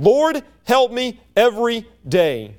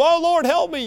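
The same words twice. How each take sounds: First: Slow, deliberate prayer; spaced out word by word as an everyday appeal; steady daily plea. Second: High-pitched mock cry for help; acted desperate plea. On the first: Acted. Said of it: "it's a continual and a daily". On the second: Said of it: "can't get our breath and don't know what's going".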